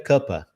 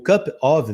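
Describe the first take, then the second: First: The words merge into one, ending in a weak vowel. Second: Both words are pronounced fully and separately. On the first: "O cup of vira cuppa" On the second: "O cup of vira cuppa"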